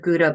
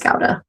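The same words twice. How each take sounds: First: The word is said the common American way. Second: The word is said the Dutch way. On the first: The speaker calls it wrong. "In America, everyone pronounces it Gouda" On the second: The speaker calls it right. "the correct pronunciation is Gouda"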